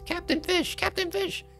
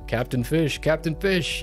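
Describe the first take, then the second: First: It is said in a tiny, high-pitched voice. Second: It is said in an ordinary speaking voice.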